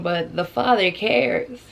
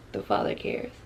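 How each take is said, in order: First: Said in the usual way. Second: Soft unvoiced echo of the Father cares; hushed reverent whisper. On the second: Real, not acted. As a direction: breathe it like a private prayer. Repeats phrase, second whispered.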